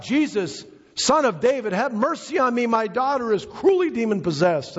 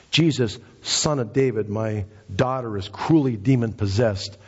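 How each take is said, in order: First: High, pleading cry for mercy. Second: Said in the usual way. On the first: Retold or imitated. Preacher voicing a woman begging Jesus for her daughter, crying out high. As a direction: imitate a desperate mother crying out in a much higher pitch. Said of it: "the woman began to cry out". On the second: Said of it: "she says".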